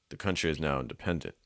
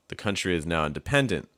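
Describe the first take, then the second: First: Independent is said evenly with gentle pitch changes. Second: Independent is overstressed with big pitch jumps. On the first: The speaker calls it right. "the second one is a little bit more natural. The the pitch ranges aren't ever jumping dramatically" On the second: The speaker calls it wrong. "That sounds overstressed"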